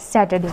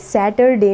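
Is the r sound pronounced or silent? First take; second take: silent; pronounced. First: The r sound is silent. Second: The r sound is pronounced. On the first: The speaker calls it right. "जो इसमें आर होता है वो pronounce नहीं होता" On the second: The speaker calls it wrong. "But ये सैटरडे नहीं होता है"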